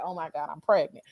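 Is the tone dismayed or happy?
dismayed. It sounds dismayed and upset.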